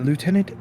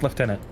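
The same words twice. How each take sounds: First: Lieutenant is said the American way. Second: Lieutenant is said the Canadian way.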